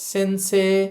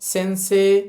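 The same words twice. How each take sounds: No difference in how they are said.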